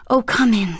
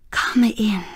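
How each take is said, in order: First: Said in the usual way. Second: Hushed whisper at the door; whispered welcome. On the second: A narrator's reading. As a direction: breathe the welcome, barely voiced. Wife greets the arriving nurse.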